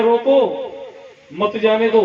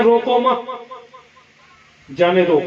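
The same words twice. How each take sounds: First: रोको alone, a pause, then मत जाने दो run together; pause after रोको. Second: रोको मत said as one phrase, long pause, then जाने दो falling; pause after मत. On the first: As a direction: break right after रोको. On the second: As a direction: break after मत, let जाने दो drop. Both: Shown as a demonstration. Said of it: "केवल coma ही तो लगाया".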